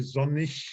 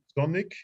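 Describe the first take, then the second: First: The word ends with a soft ich sound. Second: The word ends with a hard k sound. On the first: "you can also say sonnig, like in ich" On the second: "You can say sonic, as it is laid down here in the pronunciation"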